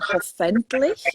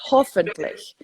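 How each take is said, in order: First: The stress falls on a non-native syllable. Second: The stress falls on the native syllable. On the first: The speaker calls it wrong. "I was putting the accent on the wrong part of the word" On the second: The speaker calls it right. "I should have been"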